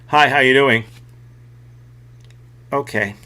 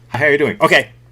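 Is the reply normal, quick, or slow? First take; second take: slow; quick. First: The reply comes slowly, after a delay. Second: The reply comes very quickly.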